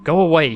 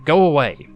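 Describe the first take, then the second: First: Said in the usual way. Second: Loud and firm, carrying through a door. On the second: A narrator's reading. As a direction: say it loud so they hear. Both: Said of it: "He says the last words loud".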